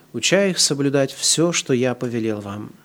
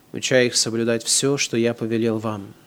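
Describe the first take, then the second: No difference in how they are said.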